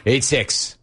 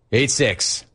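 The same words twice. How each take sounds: The two takes are said the same way.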